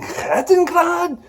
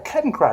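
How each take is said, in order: First: It is said with a German accent. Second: It is said with an American English accent. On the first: "his accent changed to this this German uh, accent" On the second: "I don't pronounce it that way"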